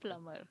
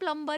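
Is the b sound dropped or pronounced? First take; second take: dropped; pronounced. First: The b sound is dropped. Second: The b sound is pronounced. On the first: The speaker calls it right. "बी silent" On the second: The speaker calls it wrong. "पर हम प्लम्बर ही बोलते हैं"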